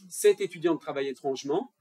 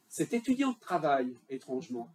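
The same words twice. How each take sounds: First: It runs on without a break before the last word. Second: There is a break just before the last word. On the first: "changer un peu l'intonation. C'est-à-dire qu'on va dire d'abord" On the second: "On pourrait mettre une virgule pour, pour euh, sélectionner la deuxième interprétation"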